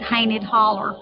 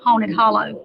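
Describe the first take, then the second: First: The name is said in a local rural dialect. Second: The name is said in standard pronunciation.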